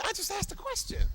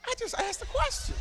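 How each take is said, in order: First: A first try, already raised high; high, innocent protest. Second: Squeaky high innocent whine; voice taken way up high. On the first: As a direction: act hurt and blameless. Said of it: "Come on, just say, say". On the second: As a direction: push it up high like you're really in it. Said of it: "You gotta take your voice up high". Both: Shown as a demonstration.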